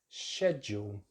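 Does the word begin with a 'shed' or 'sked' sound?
shed. The word begins with a 'shed' sound. "the correct British English pronunciation is schedule ... I'm really saying uh, shed"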